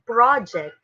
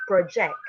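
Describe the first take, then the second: First: "project" as PRAH-ject, the noun; stress on first syllable. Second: "project" as pro-JECT, the verb; stress on second syllable. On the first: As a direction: hit PRO in "project" with an open vowel. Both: Shown as a demonstration. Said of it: "It's different".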